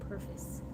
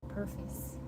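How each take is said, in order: The two takes are said the same way.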